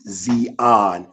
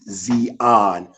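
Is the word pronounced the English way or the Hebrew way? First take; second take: Hebrew; Hebrew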